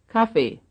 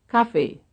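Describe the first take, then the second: No difference in how they are said.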